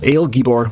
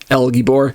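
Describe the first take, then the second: First: The first word has the vowel of 'ale'. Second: The first word has the vowel of 'ell'. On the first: The speaker calls it right. "ale Gibor would be better" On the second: The speaker calls it wrong. "El is how most people say it commonly"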